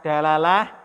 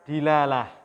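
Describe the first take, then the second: First: The first vowel is an 'a' sound. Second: The first vowel is an 'i' sound. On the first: "Bisa dibaca dalalah" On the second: "bisa juga dibaca dilalah"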